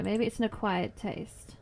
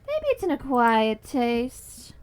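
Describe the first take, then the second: First: Said in the usual way. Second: Drawn out slowly, x0.6; slow mock-wise delivery; slow knowing. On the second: Shown as a demonstration. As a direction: stretch each word with a wry knowing tone.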